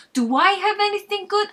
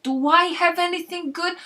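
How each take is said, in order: First: Even higher, louder repeat, hammed-up indignation; more outraged Frank. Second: High, loud, put-on New Yorker outrage; mock offended Frank. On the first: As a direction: push the fake outrage further. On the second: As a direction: act wounded at the question. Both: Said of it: "feigned offense".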